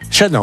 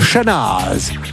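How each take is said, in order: First: The name ends without a z sound. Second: The name ends with a z sound. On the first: The speaker calls it right. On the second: The speaker calls it wrong.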